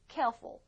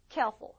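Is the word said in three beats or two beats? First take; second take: two beats; two beats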